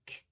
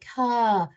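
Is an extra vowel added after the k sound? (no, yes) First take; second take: no; yes. First: The k sound is clipped with no added vowel. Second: The k sound ends with an added uh vowel. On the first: The speaker calls it right. "But if I say k" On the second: The speaker calls it wrong. "putting that uh sound at the end"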